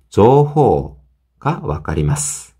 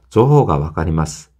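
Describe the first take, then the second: First: The o vowels in jouhou are drawn out long. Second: The o vowels in jouhou are short. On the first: The speaker calls it right. "조호 호 이렇게 오 발음이 있다고 생각을 하셔야 돼요" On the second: The speaker calls it wrong. "이렇게 하는 것보다는"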